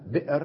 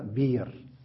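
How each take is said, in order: First: A glottal stop is heard in the middle. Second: No glottal stop is heard in the middle. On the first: This is the form with the hamza kept. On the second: This is the form with the hamza dropped.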